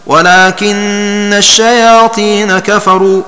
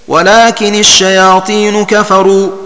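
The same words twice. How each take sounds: First: The nun is doubled, with shayatina ending in a. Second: The nun is light, with shayatinu ending in u. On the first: "بتشديد النون في ولكن مع فتحها ونصب النون في الشياطين هكذا" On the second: "بتخفيف النون فيه، ولكن مع كسرها في الوصل ... ورفع نون الشياطين"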